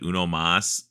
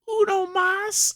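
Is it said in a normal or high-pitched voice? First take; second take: normal; high-pitched. First: It is said in a normal voice. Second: It is said in a funny high-pitched voice.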